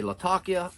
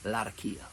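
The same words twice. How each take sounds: First: "Latakia" as luh-TAH-kee-uh; one accepted pronunciation. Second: "Latakia" as lat-uh-KEE-uh; alternative pronunciation. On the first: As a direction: put the stress of "Latakia" on TAH. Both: Shown as a demonstration. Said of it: "you can say it either way".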